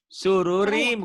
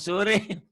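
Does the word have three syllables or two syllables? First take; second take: three; two. First: The word is said with three syllables. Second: The word is said with two syllables. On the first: The speaker calls it right. "sururim bukan surim" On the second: The speaker calls it wrong. "bukan surim"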